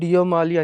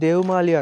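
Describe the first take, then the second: First: The name is pronounced with a 'yo' sound. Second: The name is pronounced with a 'va' sound. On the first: Other people say it this way. "ఇంకొంతమంది డియోమాలి అని అంటారు" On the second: Some people say it this way. "కొంతమంది ఏమో దేవమాలి అంటారు"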